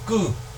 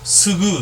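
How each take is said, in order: First: It is a single tense k sound. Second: An s sound comes before a plain k. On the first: The speaker calls it right. "대체로 이제 그 된소리로 읽어줍니다" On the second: The speaker calls it wrong. "스그, 스드 이렇게 안 하고요"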